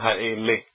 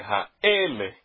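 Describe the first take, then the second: First: The stress is on the last syllable. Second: The stress is on the second-to-last syllable. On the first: The speaker calls it wrong. "e não ha-ele" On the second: The speaker calls it right. "Nós já temos aqui um exemplo de paroxítona. O tam está em cima do alef"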